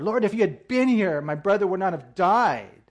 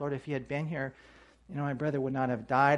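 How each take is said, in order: First: The sentence is said in an angry tone. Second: The sentence is said in a calm tone. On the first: She is blaming him for not coming. "I wonder if she said it with anger" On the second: She is simply stating what happened. "maybe this is a matter of fact"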